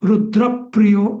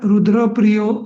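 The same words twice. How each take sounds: First: The syllable before the cluster is clearly stressed. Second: The syllable before the cluster gets no extra stress. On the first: The speaker calls it right. "आधीच्या अक्षराचा तिथं आघात द्यायचा" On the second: The speaker calls it wrong. "रुद्रप्रियो असं नाही म्हणायचं"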